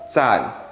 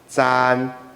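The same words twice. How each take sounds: First: The syllable is said with its lexical tone. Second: The syllable is said without a lexical tone.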